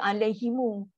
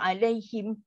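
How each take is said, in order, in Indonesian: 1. Huruf m terakhir diikuti vokal u tambahan. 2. Huruf m terakhir ditutup tanpa vokal. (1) "Dari segi bacaan Imam Qalun dan Ibn Kathir dia baca dengan beri depan" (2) "macam perempuan akan baca biasa je"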